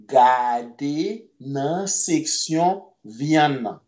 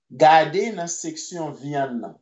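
First: "Gade nan seksyon vyann nan" spoken very slowly, word by word; slow right down so learners can follow; very slow model. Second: Said in the usual way. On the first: Shown as a demonstration. Creole teacher slowly modelling the sentence for students.

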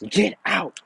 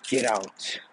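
First: High-pitched yell, moderately louder; angry yell. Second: Restrained command at normal pitch, barely raised; a held-back first order to leave; understated yell. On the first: Naruto yelling at Sakura to leave, high angry outburst. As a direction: escalate into a raised, angry command. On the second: Naruto ordering Sakura to leave, restrained anger. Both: A narrator's reading. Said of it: "yells at her".

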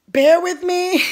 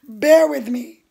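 First: "Bear" said higher and louder, begging patience; higher, louder plea. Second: Said in the usual way. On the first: Real, not acted. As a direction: plead "Bear with me" up high and loud, then laugh. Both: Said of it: "so don't trip".

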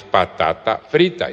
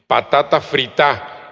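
First: Said in the usual way. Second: "frita" said as fritá, stress moved to the last vowel; slow "Patata frita" ending on an accented á; Papiamento pronunciation. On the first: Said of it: "Patata frita es patata frita". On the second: Shown as a demonstration. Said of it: "Como suena".

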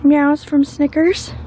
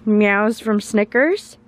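First: Higher, brighter lilting question "Meows from Snickers?"; playful high rising "Meows from Snickers?"; title suggestion. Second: Said in the usual way. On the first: Shown as a demonstration. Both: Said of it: "Is that what we should call this vlog".

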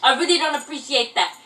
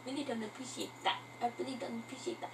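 First: Said in the usual way. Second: Very quiet, quick echo; mimicking oneself. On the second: Vlogger echoing their own odd phrasing, hushed self-mimicry. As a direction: repeat it under your breath, much softer. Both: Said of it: "I don't know why I talk like that".

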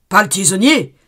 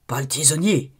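First: « tisonnier » crié plus fort, en descendant; répète « pas le tisonnier » en criant; cri suppliant. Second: Said in the usual way. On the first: Acted. (crié en suppliant) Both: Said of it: "répétait l'abbé".

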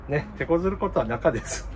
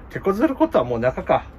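First: Said in the usual way. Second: Higher, rising at the end like a question. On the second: Shown as a demonstration. To viewers, trying the line as a question with rising tune. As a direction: toss out 手こずることはもう中か with a rising tune on 中か.

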